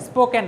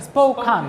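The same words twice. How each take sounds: First: স্পোকেন said with an "en" ending; rejected pronunciation. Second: স্পোকান with an open "kan" ending; corrected pronunciation. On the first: Teacher showing students the form to avoid, স্পোকেন with "-ken". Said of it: "স্পোকেন না". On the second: Teacher correcting students' pronunciation, স্পোকান ending in "-kan". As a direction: say স্পোকান, second syllable "kaan", not "ken". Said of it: "উচ্চারণ করে, স্পোকান". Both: Shown as a demonstration.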